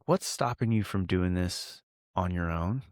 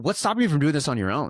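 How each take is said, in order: First: The question sounds soft and friendly. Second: The question sounds harsh and attacking. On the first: The asker is on the listener's side. The speaker calls it right. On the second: The listener is being blamed and judged. The speaker calls it wrong.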